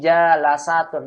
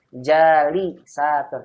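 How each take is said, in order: First: The vowel after the first syllable is 'a'. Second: The vowel after the first syllable is 'i'. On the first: The speaker calls it wrong. "Jangan jalasatun, bukan" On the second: The speaker calls it right. "kalau sudah ada alif berarti setelah alif kasroh"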